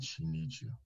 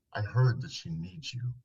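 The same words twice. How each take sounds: First: Much softer and lower, gentle. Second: Said in the usual way. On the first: Retold or imitated. Therapist softly telling a shut-down husband, low and gentle. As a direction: say it softly to get through to him. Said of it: "And my voice lowered and softly said". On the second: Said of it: "And my voice lowered".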